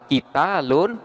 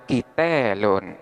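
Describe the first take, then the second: First: The long vowel is a plain open a. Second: The long vowel is tilted toward e.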